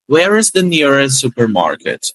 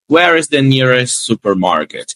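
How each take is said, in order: First: Slow Where is the nearest supermarket with the t in nearest dropped; connected speech. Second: Slow Where is the nearest supermarket with the t sounded in nearest; each word apart, slowly; careful isolated words. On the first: Teacher showing fluent linking to students, t dropped. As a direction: let nearest run into supermarket. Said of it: "Você para que ele some na palavra". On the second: Teacher contrasting choppy and fluent English, careful version. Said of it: "Então, ó". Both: Shown as a demonstration.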